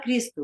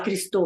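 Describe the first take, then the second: First: The stress is on the first syllable. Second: The stress is on the last syllable. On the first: This is how it is normally spoken. The speaker calls it right. "você fala Cristo" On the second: This is how singing to the melody forces it. The speaker calls it wrong. "Em português você não fala Cristo"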